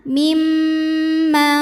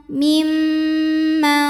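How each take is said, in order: Both takes have the same delivery.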